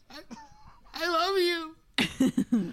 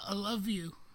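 First: It sounds deliberately forced and awkward. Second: It sounds fairly natural, not forced.

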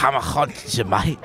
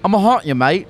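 First: A Liverpool accent with added throaty sounds. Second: A weak Liverpool accent without throaty sounds. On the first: "It's got a lot of, like, ha to it" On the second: "That was nothing like Liverpool"

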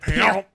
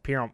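First: The word is said forcefully and aggressively. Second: The word is said plainly and calmly. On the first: The speaker calls it right. "Like it's so fucking aggressive" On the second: The speaker calls it wrong. "you don't even say it like just pimp"

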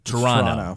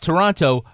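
First: The second t sound is dropped. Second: The second t sound is clearly pronounced. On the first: This is how locals say it. "if you're from there, you say Toronto" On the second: This is the usual pronunciation for outsiders. "So it's Toronto"

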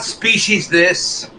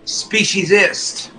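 First: The ending sounds like a separate word 'this'. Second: The ending is a plain '-ist' sound. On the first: The speaker calls it wrong. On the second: The speaker calls it right.

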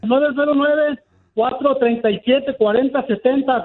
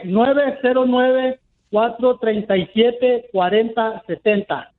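First: The number is said at a faster pace. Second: The number is said at a slower pace.

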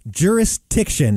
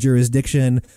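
First: The sound before 'iction' comes out like a T. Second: A Z sound precedes a clear D sound. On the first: The speaker calls it wrong. "Jurisdiction is how you just said it. ... It's not a T" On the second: The speaker calls it right. "if you do a Z sound on the S, it's really, really easy. ... I say jurisdiction"

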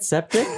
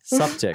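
First: The first vowel sounds like the vowel in 'set'. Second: The first vowel sounds like the vowel in 'sup'. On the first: The speaker calls it wrong. "I did not mean to mispronounce your name" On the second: The speaker calls it right. "That's how you say it"

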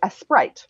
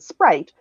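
First: A vowel is added before the s. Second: The word starts directly with the s. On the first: "when Spanish speakers order a certain kind of soft drink, they say" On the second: "rather than"

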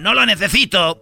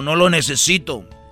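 First: It is said in a Spanish accent. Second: It is said in a Colombian accent.

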